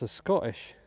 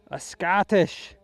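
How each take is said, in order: First: Said in the usual way. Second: Higher, louder, drawn-out mock Scottish; terrible Scottish accent. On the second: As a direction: put on a hammed-up Scottish accent. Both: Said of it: "forgive my terrible Scottish accent".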